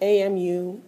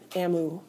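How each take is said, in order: First: It is spelled out letter by letter. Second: It is said as one word, emu. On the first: The speaker calls it right. "we pronounce that abbreviation A M U" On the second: The speaker calls it wrong. "not A M U. Emu might be some distant relative of an emu"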